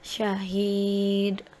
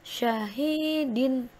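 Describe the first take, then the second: First: The word ends on a bare d sound. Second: The word ends with an -in sound. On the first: The reading stops at this word. "Begitu wakof harus dibaca syahid" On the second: The reading continues without stopping. "Begitu pula yang syahidin"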